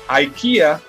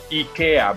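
First: It is said with an American pronunciation. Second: It is said with a Swedish pronunciation. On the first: The speaker calls it wrong. "that's not how it is pronounced" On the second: The speaker calls it right. "because it is the Swedish pronunciation"

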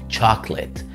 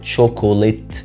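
First: The middle vowel is dropped, giving two syllables. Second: The middle vowel is pronounced, giving three syllables. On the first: The speaker calls it right. "الاو الثانيه ما بتتنطقش" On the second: The speaker calls it wrong. "ما اسمهاش شوكوليت"

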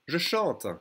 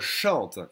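First: The vowel of 'je' is clearly pronounced. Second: The vowel of 'je' is dropped and merged.

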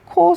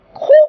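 First: The syllable is said lightly, without exaggeration. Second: The syllable is said with strong, exaggerated force. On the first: The speaker calls it right. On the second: The speaker calls it wrong.

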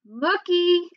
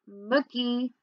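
First: The name is said louder. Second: The name is said softly.

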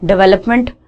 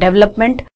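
First: The first vowel sounds like 'e'. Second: The same.

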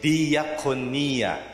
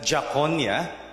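First: The opening syllables are pronounced separately. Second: The opening syllables are merged into one sound. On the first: The speaker calls it right. "But you say diakonia" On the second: The speaker calls it wrong. "you don't pronounce it that Jaconia"

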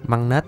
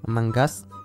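First: The name ends with a 'net' sound. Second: The name ends with a 'gus' sound. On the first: The speaker calls it right. "Măng nết chứ không phải măng ghét" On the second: The speaker calls it wrong. "Mình đọc nhầm"

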